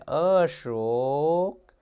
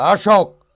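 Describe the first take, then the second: First: The name is called in a thin, soft voice. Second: The name is snapped out in a harsh voice.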